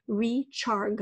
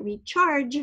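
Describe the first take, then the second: First: "recharg" ending in a hard "guh" as in go. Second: "recharge" ending in a soft "j" sound. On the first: Teacher showing the spelling without its E, ending on hard G. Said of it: "to say the hard G sound". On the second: Teacher showing what the final E does, soft G ending. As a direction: say "recharge" with the G softened to j. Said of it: "what we call the soft G sound". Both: Shown as a demonstration.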